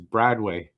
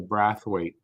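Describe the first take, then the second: First: The name is said as Bradway. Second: The name is said as Brathwaite. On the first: The speaker calls it right. "I think the right way to say that is Bradway" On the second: The speaker calls it wrong. "You don't say the Brathwaite"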